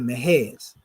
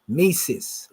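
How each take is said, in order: First: The middle consonant is an h sound. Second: The middle consonant is an s sound. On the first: This is the original Egyptian form of the name. The speaker calls it right. "instead of saying Mehes" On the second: This is the Greek rendering of the name. The speaker calls it wrong. "that's their way of saying it in the Greek way"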